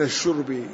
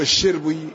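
First: The first vowel is a 'u' sound. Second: The first vowel is an 'i' sound. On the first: It means the act of drinking. The speaker calls it wrong. "بدلا من الشرب" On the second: It means the allotted share of water. The speaker calls it right. "بكسر الشين"

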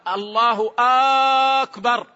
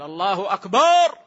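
First: The opening vowel of akbar is drawn out. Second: The vowel after the b in akbar is drawn out. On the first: It turns the phrase into a question. "أو همزة أكبر" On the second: The word comes to mean a drum. "مد الألف يغير المعنى يصبح طبل"

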